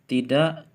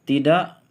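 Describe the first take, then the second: The two takes are said the same way.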